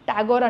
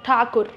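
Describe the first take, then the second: First: The name sounds like 'Tagore', with a soft g. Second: The name sounds like 'Thakur', with a hard k. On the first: This is how many Telugu speakers say it. The speaker calls it wrong. "టాగోర్ అంటారు. కానీ టాగోర్ కాదు" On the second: This is the name's actual form. The speaker calls it right.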